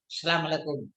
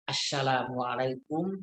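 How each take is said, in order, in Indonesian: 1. Salamnya digumamkan dan tidak jelas. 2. Salamnya diucapkan dengan jelas dan lengkap. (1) "nggak akan mungkin" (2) "jelas mengucapkannya"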